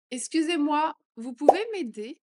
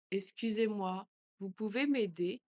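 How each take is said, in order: First: Louder and higher plea. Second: Said in the usual way. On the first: Shown as a demonstration. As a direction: call for help out loud. (plus fort, plus aigu) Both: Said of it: "phrase modelled twice".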